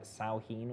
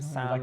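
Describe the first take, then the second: First: It is said smoothly as 'Sow-een'. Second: It is said letter by letter as 'Sam-hain'. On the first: The speaker calls it right. "but it's pronounced like Sauheen or something" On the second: The speaker calls it wrong. "it's spelt"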